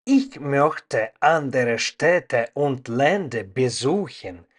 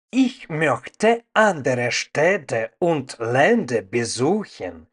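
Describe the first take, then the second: No difference in how they are said.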